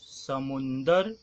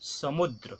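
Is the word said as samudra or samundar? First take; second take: samundar; samudra. First: It has an n sound: samundar. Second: It ends in a dr cluster: samudra. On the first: The speaker calls it wrong. "अशुद्ध" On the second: The speaker calls it right. "शुद्ध"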